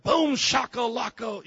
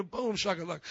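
First: Loud, high, drawn-out hype call; hyped catchphrase shout. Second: Said in the usual way. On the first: Shown as a demonstration. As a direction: shout it slowly like a rallying cry. Demonstrates hype catchphrase, then repeats plainly.

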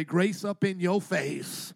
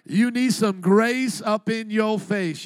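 First: Said in the usual way. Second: Grace up in your face pushed out loud and slow; louder, slower preaching repeat. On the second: Shown as a demonstration. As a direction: drive it home to the crowd, loud and slow. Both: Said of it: "Everybody say".

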